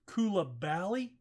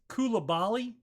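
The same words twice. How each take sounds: First: The ending sounds like 'bally'. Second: The ending sounds like 'bali'. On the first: The speaker calls it right. "Bally instead of Bali" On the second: The speaker calls it wrong. "is what I have pronounced him"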